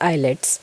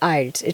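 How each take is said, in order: First: It is said as three syllables, eye-lets. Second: It is said as two syllables, eye-lts. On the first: The speaker calls it wrong. "It's not आइलेट्स" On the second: The speaker calls it right. "It's आइल्स"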